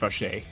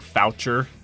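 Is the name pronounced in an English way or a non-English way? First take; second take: non-English; English. First: The name is said with non-English pronunciation. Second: The name is said with English pronunciation. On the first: The speaker calls it right. "but it's it's pronounced Fauché" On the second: The speaker calls it wrong. "in English. It's it would you would think it's pronounced like Foucher"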